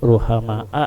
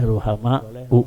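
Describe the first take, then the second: First: The word ends with an a vowel. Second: The word ends with a u vowel. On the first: The word is the object of the verb. "Ini boleh dibaca-baca ruh, ruhama a" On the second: The word is the predicate of the sentence. "boleh ruhama u"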